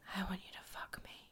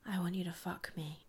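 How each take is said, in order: First: It is said in a whisper. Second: It is said in a normal voice.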